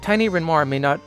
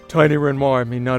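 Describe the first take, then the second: First: It is spoken in an ordinary voice. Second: It is spoken in a very deep voice.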